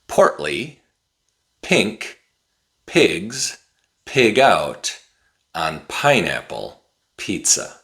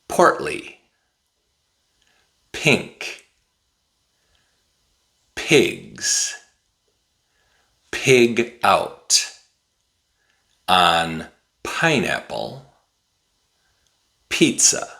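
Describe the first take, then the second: First: It is said at a somewhat faster pace. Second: It is said at a slow, careful pace.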